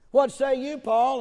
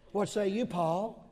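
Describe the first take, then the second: First: Much louder and higher, calling out; ringing preacher's call. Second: Said in the usual way. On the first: Real, not acted. Preacher calling on Paul before the congregation, loud. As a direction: summon Paul across the hall.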